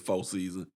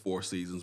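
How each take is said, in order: First: It is said with the local neighborhood pronunciation. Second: It is said with the standard pronunciation. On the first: "but we say" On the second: "the proper way to say it's"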